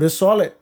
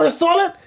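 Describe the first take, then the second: First: It is said flatly, without enthusiasm. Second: It is said with real excitement. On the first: The listener does not really like the song. "And I'd be like, all right, this ain't that good" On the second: The listener truly likes the song. "I could trust that just based on your reaction"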